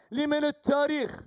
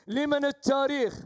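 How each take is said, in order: Both takes have the same delivery.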